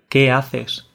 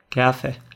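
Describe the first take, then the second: First: The final s is pronounced fully, standard style. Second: The final s is aspirated, Andalusian style.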